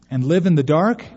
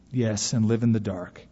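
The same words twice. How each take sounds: First: "And live in the dark" louder, rising at the end; disbelieving question. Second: "and live in the dark" lower, falling at the end; confirming answer. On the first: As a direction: ask "And live in the dark" with a rising, incredulous lift. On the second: Stranger's resigned confirming answer. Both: A narrator's reading.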